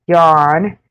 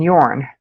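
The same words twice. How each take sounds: First: "yawn" with open ah, lifting at the end; yarn-like pronunciation. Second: "yawn" low and falling with rounded aw; yawn pronunciation. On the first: Streamer contrasting yarn with yawn, open ah pronunciation. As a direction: say "yawn" as yahn, rising. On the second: Streamer contrasting yawn with yarn, rounded aw pronunciation. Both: Shown as a demonstration. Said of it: "how to say both".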